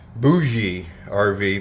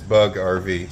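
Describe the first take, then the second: First: The first word sounds like 'boo-jee', two syllables. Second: The first word sounds like 'bug', one syllable. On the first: This is how the spelling looks like it reads. The speaker calls it wrong. "you can look at it and it might say Bougie R V" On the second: This is the official pronunciation of the name. The speaker calls it right. "if you look up the pronunciation of that word, it is Bug R V"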